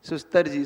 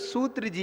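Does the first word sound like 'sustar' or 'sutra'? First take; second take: sustar; sutra. First: The word is said as 'sustar' with an inserted s. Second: The word is said as 'sutra' with long u. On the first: The speaker calls it wrong. "इसको सुस्तर जी बोलते बहुत लोग" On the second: The speaker calls it right. "Actually में इसका नाम है सूत्र जी"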